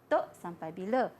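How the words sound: It is said with a low pitch.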